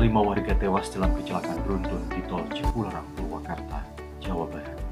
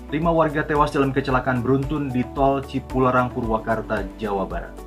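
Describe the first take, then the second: First: It is read with a grieving, mournful tone. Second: It is read seriously but without feeling. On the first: The reader shares the grief over the deaths. The speaker calls it right. "Ada duka di sana" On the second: The news is merely reported. The speaker calls it wrong. "Serius. Tapi nggak tepat"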